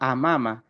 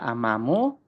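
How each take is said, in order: First: The word ends with an a vowel. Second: The word ends with a u vowel. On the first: The speaker calls it right. "selamanya dia dibaca amama" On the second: The speaker calls it wrong. "Tidak bisa amamu"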